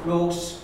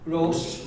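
First: The s sound is voiceless, like an s. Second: The s sound is voiceless, like an s.

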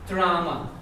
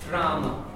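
No difference in how they are said.

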